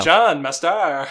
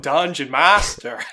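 First: "Dungeon master" misstressed as dun-JON mas-TAR; slow, comic "Dungeon master" with the stress shifted to the word endings; stress on second syllable. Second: "Dungeon master" slow and loud, stressed on each first syllable; a loud, drawn-out "Dungeon master", first syllables leading; plain stress on Dungeon master. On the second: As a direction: boom out "Dungeon master" with the usual DUN and MAS stresses. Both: Shown as a demonstration. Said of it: "Put the emphasis on the second syllable".

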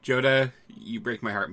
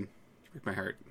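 First: Said in the usual way. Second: Much softer hammed-up sigh; soft mock heartbreak. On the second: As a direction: drop to a wounded murmur. Repeats heartbreak line softly.

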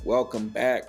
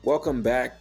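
The two takes are said the same way.

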